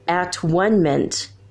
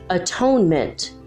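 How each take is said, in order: First: The word is split into three separate parts. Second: The word is said smoothly as one word.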